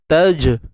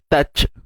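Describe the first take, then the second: First: The final consonant is a voiced 'j' sound. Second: The final consonant is a voiceless 'ch' sound. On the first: The speaker calls it right. "huruf jim ni syiddah lah" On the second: The speaker calls it wrong. "elakkan bunyi touch"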